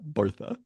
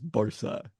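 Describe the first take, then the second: First: The middle consonant is a th sound. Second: The middle consonant is an s sound. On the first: This is how it is said in Castilian. The speaker calls it wrong. "it is in Castilian" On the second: This is how it is said in Catalan. The speaker calls it right. "it is not a T H in in Catalan"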